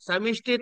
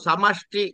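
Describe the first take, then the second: First: The middle syllable has the vowel i. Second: The middle syllable has the vowel a. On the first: The speaker calls it wrong. "సమిష్టి తప్పు" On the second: The speaker calls it right. "సమష్టి అనండి"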